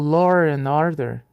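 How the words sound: An R sound links law and and.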